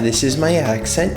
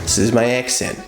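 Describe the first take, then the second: First: It is spoken in a Canadian accent. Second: It is spoken in a Boston accent. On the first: "I'm from Canada" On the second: "I'm from Boston"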